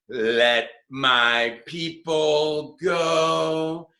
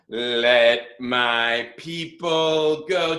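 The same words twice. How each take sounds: First: It is said big and dramatic. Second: It is said in a plain, ordinary way.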